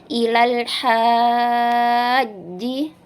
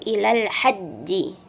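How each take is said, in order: First: The vowel before 'haji' is drawn out long. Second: The vowel before 'haji' is kept short. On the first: The speaker calls it wrong. "ada yang membaca ilal haji" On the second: The speaker calls it right. "tidak perlu dipanjangkan"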